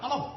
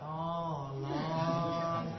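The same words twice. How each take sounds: First: It is said quickly and urgently, Batak style. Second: It is said slowly and drawn out, Javanese style.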